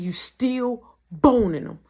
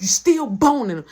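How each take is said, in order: First: Slow, loud, drawn-out accusation; defiant repeat. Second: Loud retold accusation; accusing. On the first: Retold or imitated. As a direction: repeat it slowly and loudly, daring her. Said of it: "Do it again". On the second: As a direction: say it loud, straight back at her. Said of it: "Say it again".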